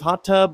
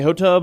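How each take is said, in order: First: Both t sounds are pronounced separately. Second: The two t sounds merge into one. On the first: The speaker calls it right. "you're supposed to have two T's in there" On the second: The speaker calls it wrong. "I didn't do that"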